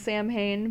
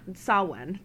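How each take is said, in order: First: The word is sounded out as it is spelled. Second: The word is not sounded out as spelled. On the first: "It's spelled Samhain" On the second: "That's how you pronounce it"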